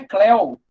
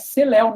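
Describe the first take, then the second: First: The C is blended into one word with Leo. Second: The C is a separate syllable before Leo. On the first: The speaker calls it wrong. "não é Cléo" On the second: The speaker calls it right. "Companheiro Léo é Celéu"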